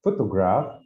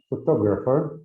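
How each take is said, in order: First: "Photograph" with the stress on PHO; teacher's demo of "Photograph", PHO stressed; stress on first syllable. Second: "photographer" with the stress on TOG; teacher's demo of "photographer", TOG stressed; stress on second syllable. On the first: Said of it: "I think in the first syllable". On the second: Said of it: "like, second". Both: Shown as a demonstration.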